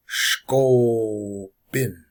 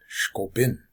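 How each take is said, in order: First: Slow SHKO, a pause, then "bin"; drawn-out demonstration. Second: Said in the usual way. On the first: Shown as a demonstration. Teacher breaking a word down for learners, slow and drawn out. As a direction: stretch out "Shko", then set "bin" apart. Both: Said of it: "they should be said real quick".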